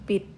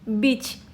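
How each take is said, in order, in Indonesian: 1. Kata ini diakhiri dengan bunyi t. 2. Kata ini diakhiri dengan bunyi ch. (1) "dibacanya menjadi bit" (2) "Harusnya kan dibacanya beach"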